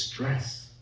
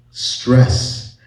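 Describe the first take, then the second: First: Said in the usual way. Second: "Stress" repeated louder, landing on a fall; stressed word. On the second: Shown as a demonstration. Speaker to audience, naming the key cost, emphatic. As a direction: punch "Stress" as its own loud one-word sentence.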